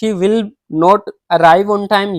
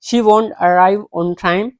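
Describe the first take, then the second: First: 'Will not' is said as two full words. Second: 'Will not' is contracted to 'won't'. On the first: "ये भी सही है" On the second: "इसको short form में आप बोल सकते हैं"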